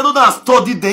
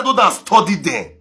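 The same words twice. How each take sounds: First: Higher and louder second telling; emphatic retold warning; louder repeat. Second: Said in the usual way. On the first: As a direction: push it up with insistence.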